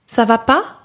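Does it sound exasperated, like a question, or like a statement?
question. It rises like a question at the end.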